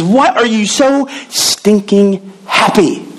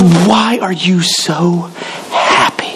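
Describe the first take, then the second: First: Slow, drawn-out incredulous question; baffled coworker. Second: Very slow, trailing to a breathy "happy"; incredulous coworker. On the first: Coworker asking the cheerful jobless teacher, slow incredulous drawl. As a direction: stretch "why" like he can't believe it. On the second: Coworker at the copy machine, slow trailing disbelief. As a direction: drag out "why" and let "happy" fade. Repeat, even slower, breathy end. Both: Retold or imitated.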